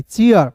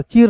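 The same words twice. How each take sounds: First: "चीयर" as chee-ar, in two beats; two-part vowel glide. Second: "चीर" as one syllable, ee straight into r; wrong one-syllable reading. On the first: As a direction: open "चीयर" from ee into ah. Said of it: "चीर नहीं, चीयर". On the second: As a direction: say "चीर" without any ah glide. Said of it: "चीर नहीं". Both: Shown as a demonstration.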